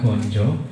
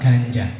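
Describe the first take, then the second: First: The vowels are pronounced as a rounded o. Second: The vowels are pronounced as an open a. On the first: The speaker calls it right. "dibaca gonjo karena memakai a miring" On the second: The speaker calls it wrong. "kalau a jejek tetap ganja"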